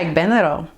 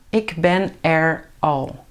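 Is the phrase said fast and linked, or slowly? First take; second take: fast; slowly. First: It is said fast, with er joined on. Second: It is said slowly, each word separate.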